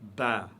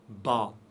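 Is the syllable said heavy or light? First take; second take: light; heavy. First: The syllable is said light and thin. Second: The syllable is said heavy and full. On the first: The speaker calls it right. "on dit Ba ... prononcé légèrement" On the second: The speaker calls it wrong. "On ne dit pas Ba. ... c'est faux"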